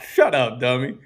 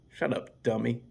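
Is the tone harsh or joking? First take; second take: joking; harsh. First: It is said in a playful, joking tone. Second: It is said in a harsh, insulting tone. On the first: The insult is meant as a friendly joke. "You can't write humor" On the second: The insult is meant seriously. "it's like me saying"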